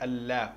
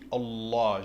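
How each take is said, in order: First: The L is light, not emphatic. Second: The L is heavy and emphatic. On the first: The speaker calls it wrong. "j'ai pas dit Allah" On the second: The speaker calls it right. "Vous avez vu comment j'ai dit Allah"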